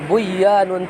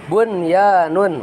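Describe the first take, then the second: First: The n before the y is merged away. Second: The n before the y is clearly pronounced. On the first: The speaker calls it wrong. "tidak dibaca buyanun" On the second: The speaker calls it right. "tapi tetap bunyanun"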